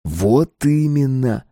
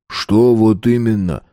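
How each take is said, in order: First: Slow, raised, knowing confirmation; meaningful. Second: Slow challenging question back. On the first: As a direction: stretch "Вот именно" out with significance. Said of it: "сказал Стас многозначительно". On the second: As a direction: throw "вот именно" back as a question. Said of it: "спросил бульдожик". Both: A narrator's reading.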